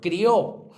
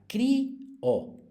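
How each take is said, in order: First: The two vowels are joined in one syllable. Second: The two vowels are split into separate syllables. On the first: "crió es un diptongo, es monosílaba" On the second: "rompemos el diptongo y sería cri o"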